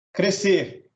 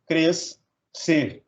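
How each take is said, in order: First: Said in the usual way. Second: "cres" and "ser" with a clear gap; split into syllables. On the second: Shown as a demonstration. Teacher dividing crescer, "cres, ser" syllable by syllable. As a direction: say "cres", pause, then "ser". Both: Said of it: "separar um em cada sílaba".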